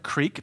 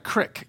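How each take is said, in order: First: Said the general way, with a long vowel. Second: Said the Pittsburgh way, with a short vowel.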